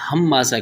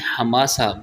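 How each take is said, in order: First: The m sound is held long and doubled. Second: The m sound is short and single. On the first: The speaker calls it wrong. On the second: The speaker calls it right.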